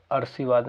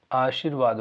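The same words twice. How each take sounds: First: "अर्शीवाद" with r moved before shee; wrong pronunciation. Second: "आशीर्वाद" with long opening aa, r after shee; correct pronunciation. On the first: Teacher warns students off a common mistake, mispronouncing "अर्शीवाद". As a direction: say "अर्शीवाद" with short a, early r. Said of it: "अर्शीवाद नहीं होता". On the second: Teacher shows students the right word, correct pronunciation of "आशीर्वाद". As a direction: say "आशीर्वाद" with the r just before vaad. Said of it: "आशीर्वाद होता है या अर्शीवाद नहीं होता". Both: Shown as a demonstration.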